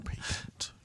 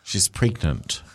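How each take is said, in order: First: Whispered psychic prophecy; mock mystical whisper. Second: Low, slow psychic prophecy; mock mystical. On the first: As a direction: breathe the word like a seer. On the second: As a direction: intone it like a fake clairvoyant. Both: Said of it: "A little psychic voice kicked in".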